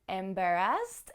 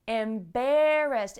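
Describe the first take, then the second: First: The stress falls later, near the end. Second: The stress is on the second syllable. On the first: The speaker calls it wrong. "the stress is later in the word" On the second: The speaker calls it right. "the stress is on the second syllable"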